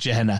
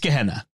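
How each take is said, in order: First: The word begins with a soft G sound. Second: The word begins with a hard G sound. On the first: The speaker calls it wrong. "The deacon kept calling it Gehenna" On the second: The speaker calls it right. "It's a hard G"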